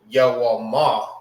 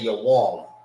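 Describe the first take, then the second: First: The word ends with an audible final vowel. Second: The word ends on the consonant, without a vowel. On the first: The speaker calls it wrong. "You don't say Yawama because it's not written like that" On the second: The speaker calls it right. "You say your warm. You see you don't say the A at the end"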